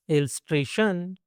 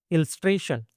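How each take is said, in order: First: illustration stretched, with a long final "shun"; illustration lengthened for learners to follow. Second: Said in the usual way. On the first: Shown as a demonstration. Word model, then drawn-out repeat.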